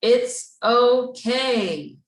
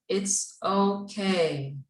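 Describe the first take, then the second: First: "It's okay" slow, higher and louder with conviction; said like you mean it. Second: Said in the usual way. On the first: Shown as a demonstration. Teacher shows the class how to mean it, loud and slow. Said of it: "say it like you mean it". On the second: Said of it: "say it out loud".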